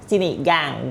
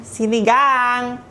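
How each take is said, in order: First: Said in the usual way. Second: Sinigang stretched slow and high; drawn-out sinigang. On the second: Shown as a demonstration. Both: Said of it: "gang, gustong sinigang".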